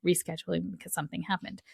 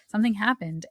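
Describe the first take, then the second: First: Said in the usual way. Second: "Something" lifted and a touch louder; stress on something. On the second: Real, not acted. Insisting that life happens, stressing "Something". Repeats phrase with emphasis.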